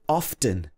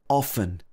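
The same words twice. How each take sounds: First: The T sound is pronounced in the middle. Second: The T sound is silent in the middle. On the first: "I myself sometimes say often" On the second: "without saying the T"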